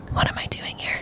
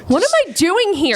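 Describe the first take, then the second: First: Hushed, voiceless aside to oneself; whispered self-doubt. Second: Higher-pitched, mock-panicked question; bewildered disbelief. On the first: Retold or imitated. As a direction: whisper it like a panicked private thought. Retold private doubt among seasoned travelers. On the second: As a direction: wonder aloud in retold disbelief. Retold bewilderment on arriving in New York.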